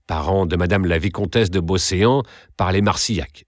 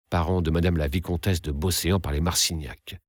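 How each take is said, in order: First: Said in the usual way. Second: Softer, reflective repeat of the introduction; hushed echo. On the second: A narrator's reading. Narrator recalling the countess's introduction, hushed echo. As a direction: echo the words quietly, as if weighing them.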